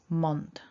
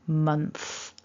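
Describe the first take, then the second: First: The word ends with a plain t sound. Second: The word ends with a soft th sound. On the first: The speaker calls it wrong. "what we don't want to say" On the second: The speaker calls it right. "We're going for month. So get that tongue out"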